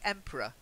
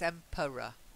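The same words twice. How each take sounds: First: The middle vowel is dropped, leaving two syllables. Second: All three syllables are said, with weak middle vowel. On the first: "as if that middle e doesn't exist at all" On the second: "schwa, r, schwa"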